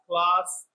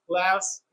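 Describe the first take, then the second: First: It is said with a British accent. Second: It is said with an American accent.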